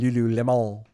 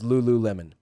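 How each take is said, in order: First: The name is pronounced in a French style. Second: The name is pronounced as it is spelled. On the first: This is how the name is meant to sound. "It's probably supposed to be French. It's supposed to be" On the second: This is how the written name reads. "but it says"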